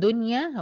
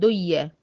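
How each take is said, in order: First: The n sound is clearly pronounced. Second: The n sound merges into the following sound. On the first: The speaker calls it right. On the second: The speaker calls it wrong.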